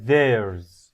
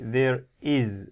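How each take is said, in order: First: The two words merge into one syllable. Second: Both words are said fully and separately. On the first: The speaker calls it right. "We say there's. One word" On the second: The speaker calls it wrong. "we don't say there is a beautiful"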